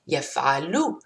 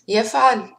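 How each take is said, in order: First: The word ends with a short final u vowel. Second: The word ends on a consonant, no final vowel. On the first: The speaker calls it wrong. "if I say يفعل, they might write يفعلوا" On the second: The speaker calls it right. "I'm pausing at the end of verbs"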